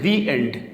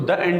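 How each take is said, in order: First: 'The' is pronounced with a long 'thee' vowel. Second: 'The' is pronounced with a short 'thuh' vowel. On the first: The speaker calls it right. "तो इसको हम पढ़ेंगे दी एंड" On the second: The speaker calls it wrong. "इसको द end नहीं कहेंगे"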